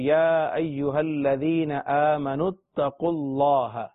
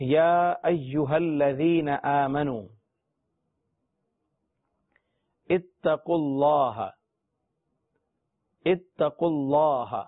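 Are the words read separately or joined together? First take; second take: joined; separately. First: The words are joined together in one flow. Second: The words are read separately, not joined.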